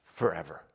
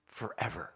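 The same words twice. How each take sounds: First: Said in the usual way. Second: A quiet, heavy Forever; soft echo of forever. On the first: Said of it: "repeated for weight". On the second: Shown as a demonstration. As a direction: drop to near silence on Forever. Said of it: "echoed softly for weight".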